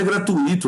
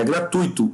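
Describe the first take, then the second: First: "gratuito" split as gra-tu-Í-to, beat on Í; wrong hiatus gratuÍto. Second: "gratuito" with ui as one syllable, stressed on U; correct diphthong graTÚIto. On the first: Teacher showing the mistake, gra-tu-Í-to stressed on Í. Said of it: "Não é gratuito". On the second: Teacher correcting students, gra-TÚI-to in three syllables. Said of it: "é gratuito". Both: Shown as a demonstration.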